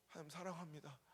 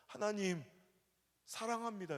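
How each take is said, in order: First: Softly repeated prayer. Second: A higher, louder cry of love to God; crying out in prayer. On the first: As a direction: say it again, hushed and humble. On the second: Pastor retells crying out to God in prayer, higher and louder. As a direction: call out to God through tears. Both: Retold or imitated. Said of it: "펑펑 울면서".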